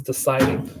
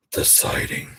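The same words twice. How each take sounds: First: Said in the usual way. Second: Eerie whispered echo; whispering. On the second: Acted. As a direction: breathe it out like a ghost story. Spooky echo of own words.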